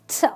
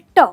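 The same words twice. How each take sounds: First: The t sound is said the English way. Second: The t sound is said the Hindi way. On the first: The speaker calls it right. "But that's not the way you say it in English. You say t" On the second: The speaker calls it wrong. "In Hindi we say t"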